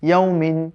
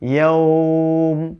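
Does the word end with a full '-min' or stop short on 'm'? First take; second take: full -min; stops short. First: The word ends with a full '-min' syllable. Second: The word stops on 'm' with a lengthened vowel. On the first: The reader continues without stopping. "ওয়াকফটা আপনি চিন্তা না করেন" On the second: The reader pauses at this word. "যখন এখানে ওয়াকফ করবেন"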